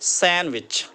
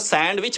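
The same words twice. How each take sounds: First: The d sound is silent in the word. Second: The d sound is pronounced in the word. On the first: The speaker calls it right. "डी silent" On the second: The speaker calls it wrong. "हम इसको सैंडविच पढ़ते थे, तो सैंडविच गलत है"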